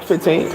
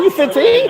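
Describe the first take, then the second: First: Said in the usual way. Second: Very high incredulous question; retold astonished woman, pitch leaping up; imitated woman's shock. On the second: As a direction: squeak it in mock disbelief. Woman shocked at his age.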